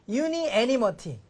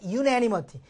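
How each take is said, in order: First: Both vowels are kept, as 'uni animity'. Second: Said quickly, the vowels merge into 'unanimity'. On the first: "발음으로 보면 그걸 확인할 수 있으니까" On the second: "빨리 발음하니까"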